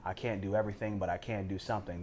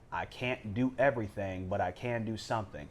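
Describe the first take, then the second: First: It is said at a normal, quicker pace. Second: It is said more slowly and deliberately.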